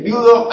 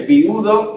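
First: VIUDO as vi-U-do, three syllables; viudo with hiatus. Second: VIUDO as VIU-do, two syllables; viudo with diphthong. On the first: Teacher showing one of two pronunciations, hiatus vi-U-do. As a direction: split I from U in VIUDO. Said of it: "hay gente que dice viudo". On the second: Teacher showing the other pronunciation, diphthong VIU-do. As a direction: glide I into U in VIUDO. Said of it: "De las dos maneras se puede decir". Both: Shown as a demonstration.

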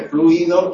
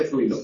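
First: FLUIDO as flu-I-do, three syllables; fluido with hiatus. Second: FLUIDO as FLUI-do, two syllables; fluido with diphthong. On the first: Teacher showing one of two pronunciations, hiatus flu-I-do. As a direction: split U from I in FLUIDO. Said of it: "Hay gente que dice fluido". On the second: Teacher showing the other pronunciation, diphthong FLUI-do. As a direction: glide U into I in FLUIDO. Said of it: "De las dos maneras se puede decir". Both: Shown as a demonstration.

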